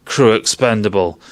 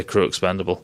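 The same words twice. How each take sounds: First: "Crew expendable" at normal level as a cold computer command; mock computer order. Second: "crew expendable" said softer, low and held back; hushed anticipation. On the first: Voicing Mother giving the order, a mild mock computer command. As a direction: deliver the order outright like the ship's computer. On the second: Retold or imitated. Waiting for the film's famous line, he murmurs it softly. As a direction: murmur the expected line under the breath. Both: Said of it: "I was waiting for it to say".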